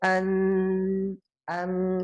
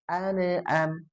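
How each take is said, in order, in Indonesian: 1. Bunyi n ditahan lewat hidung. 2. Bunyi n dipantulkan dengan vokal pendek. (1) "khoisyum masuk hidung ya" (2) "jadi mantul"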